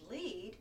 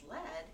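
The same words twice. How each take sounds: First: It is said as the verb meaning to guide. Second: It is said as the name of the metal. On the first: It means guiding somebody. "Pronounced lead, you're referring to leading somebody" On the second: It means a type of metal. "Pronounced lead, you're referring to uh, a type of ore"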